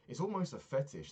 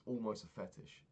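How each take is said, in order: First: "almost" pushed up high and hit hard; "almost" punched high and loud for emphasis; stress on almost. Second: Said in the usual way. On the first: Real, not acted. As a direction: lean hard on "almost", rising to it.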